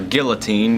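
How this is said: The word is pronounced the English way.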